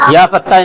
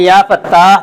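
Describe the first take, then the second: First: The vowel is said short, without lengthening. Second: The vowel is drawn out and held longer. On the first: The speaker calls it wrong. "या पत्ता नहीं याद करना है" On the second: The speaker calls it right. "थोड़ा खींच के"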